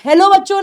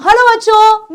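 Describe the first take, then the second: First: हेलो said as "helo" with an e sound; the mispronunciation she avoids; हेलो with a flat e, the wrong way; wrong hello. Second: हेलो said as "halo", open a, falling; cheerful teacher hello to the class; हेलो with an open "ha" sound; teacher's greeting. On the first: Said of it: "नहीं बोलती". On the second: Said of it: "जैसे मैं कैसे बोलती हूँ". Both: Shown as a demonstration.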